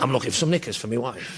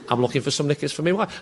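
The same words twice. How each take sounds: First: It sounds gruff, talking past an imaginary cigarette. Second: It sounds nervous, like someone out of place.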